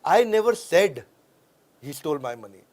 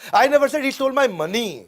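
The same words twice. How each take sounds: First: The stress is on "said". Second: The stress is on "money".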